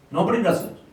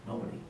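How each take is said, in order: First: Nobody punched higher and louder; emphatic repeat. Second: Quiet answer. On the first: To an audience of officials, a louder emphatic Nobody on the repeat. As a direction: hit Nobody hard the second time. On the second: To an audience of officials, first a soft quiet Nobody. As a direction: drop to a near-murmur on Nobody. Answering own rhetorical question. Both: Real, not acted.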